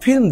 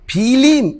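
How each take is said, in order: First: The last two consonants are said together as a cluster. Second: A vowel is inserted between the last two consonants. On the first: It is the city way of saying it. "শহরের কপত কপতিরা ... বলে" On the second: It is the village way of saying it. "এই রসই কেন আসলো?"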